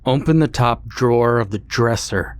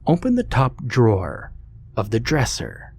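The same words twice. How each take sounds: First: It is said at a louder volume. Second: It is said at a quieter volume.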